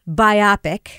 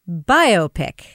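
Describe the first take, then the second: First: It is not split into 'bio' plus 'pic'. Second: It is said as 'bio' plus 'pic'. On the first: The speaker calls it wrong. "is not biopic, as Kevin always says" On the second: The speaker calls it right. "It is biopic, as in a bio picture"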